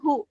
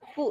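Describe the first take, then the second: First: The syllable starts with a plain h sound. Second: The syllable starts with a soft f sound. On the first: The speaker calls it wrong. "bukan hu" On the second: The speaker calls it right. "fu ya"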